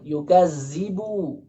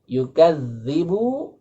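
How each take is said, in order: First: The middle consonant is a buzzing 'z' sound. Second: The middle consonant is a soft 'th' sound. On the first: Belittling. The speaker calls it wrong. "dibaca dengan yukazibu" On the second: Denying. The speaker calls it right. "Yang seharusnya yukadzibu"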